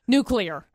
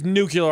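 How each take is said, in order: First: "Nuclear" said nuke-lee-ar, corrective; "Nuclear" as nuke-lee-er, carefully. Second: "nuclear" said as nuke-yoo-lar; "nuclear" with an extra yoo syllable, nuke-yoo-ler; mispronounced nuclear. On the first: Shown as a demonstration. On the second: Real, not acted. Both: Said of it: "The word is nuclear".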